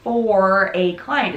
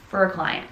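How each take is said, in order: First: Each word is said fully and separately. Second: The unstressed words are reduced and blended together. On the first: The speaker calls it wrong. "We don't say" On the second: The speaker calls it right. "it's for a client"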